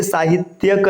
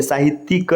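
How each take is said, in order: First: साहित्यक ending in "tyak"; wrong ending. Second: साहित्यिक ending in "tik", with a clear i; correct ending. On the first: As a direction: say साहित्यक as "saahit-yak". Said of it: "नहीं होता है". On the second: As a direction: say साहित्यिक as "saahit(y)ika". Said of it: "लिखा जाता है". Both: Shown as a demonstration.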